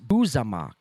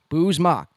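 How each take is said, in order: First: The name is said with an extra middle syllable. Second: The name is said in two syllables. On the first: The speaker calls it wrong. "That's not the proper pronunciation" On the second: The speaker calls it right.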